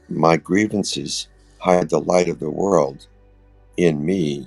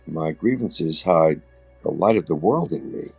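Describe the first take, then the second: First: There is a break before "in me". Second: There is a break after "hide". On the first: The light is hidden somewhere inside me. The speaker calls it wrong. "with that understanding, which is incorrect" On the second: The light within me is hidden by grievances. The speaker calls it right. "The light of the world is in me, but it's hidden if I have grievances"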